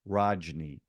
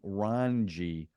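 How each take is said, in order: First: The j sound comes before the n sound. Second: The n sound comes before the j sound. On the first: The speaker calls it right. "not Rajni" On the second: The speaker calls it wrong. "I was calling him Ranji"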